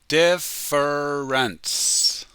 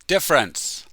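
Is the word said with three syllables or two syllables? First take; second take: three; two. First: It is said slowly with three syllables. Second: It is said quickly with two syllables. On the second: "when we speak quickly, it's only two syllables"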